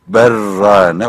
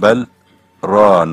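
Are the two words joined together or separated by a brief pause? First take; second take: joined; paused. First: The l merges into the r without pause. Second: A brief stop separates bel from rane. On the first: "tecvid kaidesine göre okusak berrane okumak lazım" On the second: "Asım kıraatına göre"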